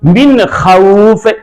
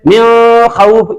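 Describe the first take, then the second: First: The n is clear and quickly released. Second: The n is drawn out through the nose. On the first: The speaker calls it right. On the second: The speaker calls it wrong.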